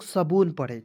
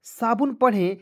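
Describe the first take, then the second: First: सबून with a short "sa" and long "boon"; long second vowel. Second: साबुन with a long "saa" and short "bun"; long first vowel. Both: Shown as a demonstration. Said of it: "या इसे हम लोग सबून पढ़ें".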